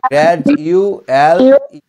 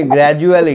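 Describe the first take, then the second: First: গ্র্যাজুয়াল ই slowly, in four separate beats; split in four. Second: Said in the usual way. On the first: Shown as a demonstration. Teacher dividing a word for pupil, slow and syllabic. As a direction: pull গ্র্যাজুয়াল ই apart syllable by syllable. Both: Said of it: "চার ভাগে ভাগ".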